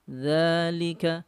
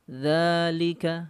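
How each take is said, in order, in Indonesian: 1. Vokal pertama ditahan selama dua harakat. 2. Vokal pertama ditahan selama dua harakat.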